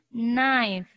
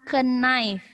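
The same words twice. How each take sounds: First: The initial K sound is silent. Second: The initial K sound is pronounced. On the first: The speaker calls it right. "K-nya tidak disebut, tidak dibaca" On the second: The speaker calls it wrong. "bukan knife. Ya, itu salah"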